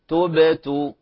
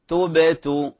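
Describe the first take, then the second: Both takes have the same delivery.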